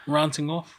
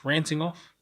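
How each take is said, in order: First: "Ranting" with a broad 'ah' vowel; long-A ranting. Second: "Ranting" with the 'a' of ant; short-A ranting. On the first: Testing out the word, "Ranting" as RAHN-ting. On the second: Testing out the word, "Ranting" with the 'a' of ant. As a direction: say "Ranting" as RAN-ting, first vowel as in ant. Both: Shown as a demonstration. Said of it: "How do you say the word".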